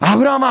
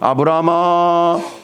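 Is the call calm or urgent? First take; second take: urgent; calm. First: It is called out hurriedly and urgently. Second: It is called quietly, softly and warmly.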